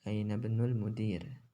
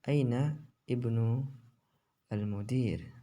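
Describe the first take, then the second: First: The words are read linked, with the glottal start dropped. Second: Each word is read separately, with its own glottal start.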